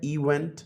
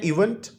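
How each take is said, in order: First: इवेंट in two syllables, इ-वेंट. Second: Said in the usual way. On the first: Shown as a demonstration. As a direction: break इवेंट softly into two beats, इ then वेंट. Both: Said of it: "ये two syllable word है".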